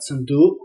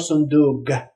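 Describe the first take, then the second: First: The word ends in a k-like sound. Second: The word ends in a g sound.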